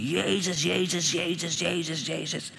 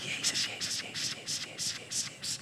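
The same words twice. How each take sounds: First: Held-back scream, raised pitch without volume; mock scream. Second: Whispered name repeated over and over; barely audible, unvoiced whispered chant; very soft whisper. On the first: Man retelling how he began screaming to Jesus, restrained mock scream. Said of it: "ik begin te schreeuwen". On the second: Man retelling how he softly called on Jesus, whispering. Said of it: "Zo zachtjes".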